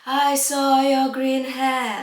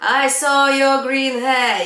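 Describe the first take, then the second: First: It is said with a breathy voice. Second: It is said in a plain conversational voice.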